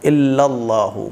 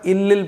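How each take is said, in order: First: The word is said in full as illallahu. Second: The word is cut short as illil. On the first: The speaker calls it right. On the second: The speaker calls it wrong.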